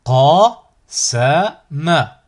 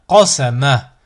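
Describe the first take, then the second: First: Slow, each syllable drawn out separately; split into syllables. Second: Syllables joined as one word. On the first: Teacher models a word for learners to repeat, split into syllables. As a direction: cut the word up, pausing between syllables. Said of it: "décomposer le mot". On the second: Teacher models a word for learners to repeat, joined in one go. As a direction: run the syllables together without pauses. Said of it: "ensuite le mot". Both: Shown as a demonstration.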